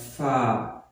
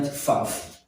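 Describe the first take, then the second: First: The name ends on an open vowel. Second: The name ends with an added f sound. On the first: The speaker calls it right. "This one is called fa" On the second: The speaker calls it wrong. "not faf"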